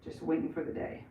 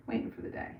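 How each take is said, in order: First: Said in the usual way. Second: Breathy whispered repeat; a soft voiceless echo. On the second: Acted. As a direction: whisper the phrase back to yourself.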